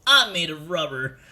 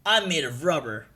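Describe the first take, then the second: First: Lightly voiced cartoon hero, louder; Sonic Luffy. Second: Lightly voiced cartoon hero; a hint of a character voice; Luffy. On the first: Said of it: "That's the Sonic Luffy voice". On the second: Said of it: "That's the Luffy voice".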